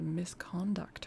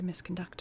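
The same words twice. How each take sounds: First: It is pronounced like the noun form. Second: It is pronounced like the verb form. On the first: The speaker calls it wrong. "I pronounced it like the noun" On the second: The speaker calls it right. "like the like a verb"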